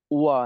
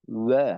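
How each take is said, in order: First: "ওয়া" said the wrong way, as two sounds run together, o then a; "ওয়া" sliding from o into a; wrong waw. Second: "ওয়া" as one clean Arabic waw, lips rounded, no glide; "ওয়া" short and single, wa from rounded lips; correct waw. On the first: Teacher showing students the mistake to avoid, wrong "ওয়া". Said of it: "ওয়া না". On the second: Teacher giving students the right "ওয়া" after the wrong one. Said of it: "আসলে ওয়াও এর উচ্চারণটা হবে". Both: Shown as a demonstration.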